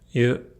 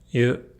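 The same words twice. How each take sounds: First: The vowel is said with nearly neutral lips. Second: The same.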